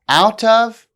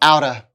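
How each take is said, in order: First: Both words are said fully and separately. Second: The words are blended into a reduced form.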